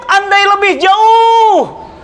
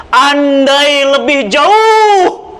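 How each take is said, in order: First: Very slow, higher, drawn-out cry; dying cry. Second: Dying cry. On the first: Dying man cries his regret, slow and high. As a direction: wail the words long and high. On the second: Dying man cries out his regret, very slow and stretched. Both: Acted. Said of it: "Sya'ban teriak".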